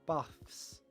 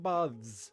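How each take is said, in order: First: The 'th' sound is unvoiced. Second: The 'th' sound is voiced. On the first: "Some people pronounce it baths with an unvoiced" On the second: "Some people pronounce it baths with a voiced v"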